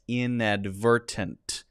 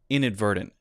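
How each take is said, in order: First: Both t sounds are pronounced fully and crisply. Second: The t sounds are a light d and stop. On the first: "if you say it with all the T sounds" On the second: "with the light D and the stop T sound at the end"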